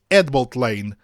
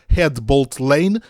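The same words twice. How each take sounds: First: The initial H is dropped entirely. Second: The initial H is breathed out clearly. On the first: The speaker calls it right. "pronuncia-se Headbolt Lane, sem o sopro do H" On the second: The speaker calls it wrong.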